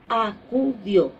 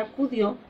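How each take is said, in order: First: "acudió" broken into three separate syllables, a, cu, dió. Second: Said in the usual way. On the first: Shown as a demonstration. Teacher showing students a three-syllable word, "acudió" split syllable by syllable. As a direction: sound out "acudió" slowly, one syllable at a time. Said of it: "es una palabra trisílaba". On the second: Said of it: "la sílaba más fuerte de la palabra".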